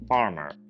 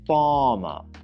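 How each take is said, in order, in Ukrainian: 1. Американський акцент; наголошений голосний коротший. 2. Британський акцент; наголошений голосний довший.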